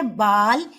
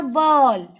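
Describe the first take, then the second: First: बाल with a plain open आ. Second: बॉल with a rounded ऑ like English ball. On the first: Teacher contrasts बाल for pupils, open a. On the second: Teacher contrasts बॉल for pupils, rounded vowel. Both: Shown as a demonstration. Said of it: "बोलो और अंतर समझो".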